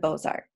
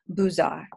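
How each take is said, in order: First: It is said with an American pronunciation. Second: It is said with a French pronunciation.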